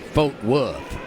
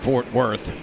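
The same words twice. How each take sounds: First: It is said the way local Texans say it. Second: It is said in the speaker's plain accent.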